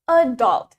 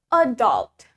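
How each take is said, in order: First: The stress is on the first syllable. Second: The stress is on the first syllable.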